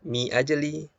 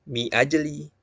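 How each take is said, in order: No difference in how they are said.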